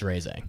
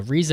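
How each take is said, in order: First: Reize said like raise, ay vowel; correct pronunciation. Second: Rize said as rise, long i; wrong pronunciation. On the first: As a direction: Reize pronounced ray-zuh, the right way. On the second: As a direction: Rize pronounced like the English word rise. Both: Shown as a demonstration. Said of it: "actually pronounced Reize".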